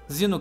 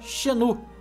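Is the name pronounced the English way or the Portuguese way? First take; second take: English; Portuguese. First: The name is pronounced with English sounds. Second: The name is pronounced with Portuguese sounds.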